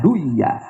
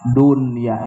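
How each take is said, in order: First: The n is merged into the following y. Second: The n is pronounced clearly before the y. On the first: The speaker calls it wrong. "teu meunang dibaca" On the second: The speaker calls it right. "wajib diizharkeun"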